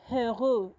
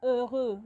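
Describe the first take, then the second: First: Heureux with a spoken H sound; wrong aspirated H. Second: Heureux said with no H, starting on the E; silent H. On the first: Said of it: "the letter H is silent". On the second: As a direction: drop the H, heureux begins on the vowel. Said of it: "You pronounce from the E". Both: Shown as a demonstration.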